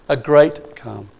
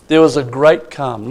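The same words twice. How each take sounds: First: Great drawn out and leaned on, slower; stress on great. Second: Said in the usual way. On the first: Shown as a demonstration. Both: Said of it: "not just calm, a great calm".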